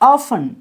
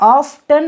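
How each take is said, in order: First: The word is said without a t sound. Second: The word is said with a t sound. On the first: The speaker calls it right. "ஆஃபன் அப்படின்னா அடிக்கடி" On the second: The speaker calls it wrong. "நிறைய பேர் இதான் ஆஃப்டன் அப்படின்னு படிக்கிங்க. அப்படி படிக்கக்கூடாது"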